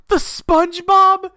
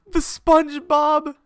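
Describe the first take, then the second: First: High, loud, slow stunned question; can't believe what he sees; surprised. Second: Surprised. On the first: Spotting the SpongeBob skin, stunned disbelief. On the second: Repeats in disbelief. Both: Real, not acted.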